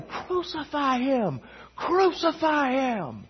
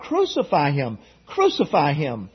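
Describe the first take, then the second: First: Higher, slow, drawn-out mob chant; voicing the mob. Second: Said in the usual way. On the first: Preacher acting the angry mob yelling at Pilate, high and drawn-out. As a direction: paint the mob chanting from far off.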